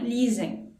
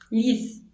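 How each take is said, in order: First: The word ends with a nasal sound. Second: The word ends without a nasal sound. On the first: The speaker calls it wrong. "não lisem" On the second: The speaker calls it right. "Lise, não lisem"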